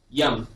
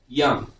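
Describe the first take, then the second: First: The vowel is a short, open 'uh' sound. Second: The same.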